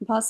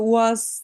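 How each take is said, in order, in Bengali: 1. এটি V ধ্বনি দিয়ে শুরু, শেষে s। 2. এটি W ধ্বনি দিয়ে শুরু, শেষে z। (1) "ভের উচ্চারণটা খেয়াল রাখবো" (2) "ওয়াজ বা ওরকম বলা যাবে না ইংরেজির মতো"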